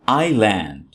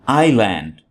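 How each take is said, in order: Both takes have the same delivery.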